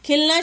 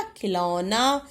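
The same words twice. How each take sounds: First: खिलना as "khil-naa"; quick खिलना, no vowel after ल; misspelt word. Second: खिलौना slow, with a long औ; खिलौना lower, stretched as "khi-lau-naa"; corrected word. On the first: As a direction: say खिलना without any औ. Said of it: "शब्द भी होता है". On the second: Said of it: "तो हमने क्या लिखा". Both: Shown as a demonstration.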